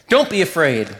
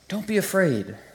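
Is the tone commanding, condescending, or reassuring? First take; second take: commanding; reassuring. First: It sounds stern and commanding. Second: It sounds gentle and reassuring.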